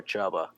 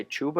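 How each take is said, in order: First: Chuba, first syllable rhyming with "rub"; Chuba as CHUH-ba. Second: Chuba, first vowel as in "food"; Chuba as CHOO-ba. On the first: Host offering the other pronunciation, Chuba as CHUBB-uh. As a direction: say Chuba with an open vowel: CHUBB-uh. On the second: Host asking how the player's name goes, Chuba as CHOO-buh. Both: Shown as a demonstration. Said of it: "do you say Chuba or Chuba?".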